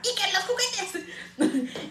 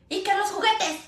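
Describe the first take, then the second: First: Slow, high braying mock voice through laughter; donkey voice. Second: Higher, quick nagging call; mock nagging call. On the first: Mocking her own nagging to her son, slow braying voice. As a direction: bray it like a silly donkey. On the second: Mom telling son about toys, higher nagging call. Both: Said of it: "hablo como la burrita burrona".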